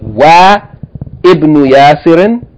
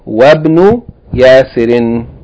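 First: The 'i' of ibn is pronounced separately. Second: The 'i' is dropped, linking wa to bn. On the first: The speaker calls it wrong. "So we don't say Wa Ibn Yasirin" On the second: The speaker calls it right. "Rather we say Wabn Yasirin"

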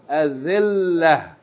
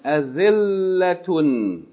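First: The word ends in an h sound, no vowel. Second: The word ends in a t sound plus 'un'. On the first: The reader stops on this word. "If we stop on it, we pronounce the tarmabuta as ha with no vowels" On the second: The reader continues to the next word. "You keep reading"

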